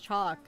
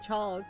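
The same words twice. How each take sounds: First: The L sound is silent. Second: The L sound is clearly pronounced. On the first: "but it's just chalk" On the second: "if you want to emphasize the L"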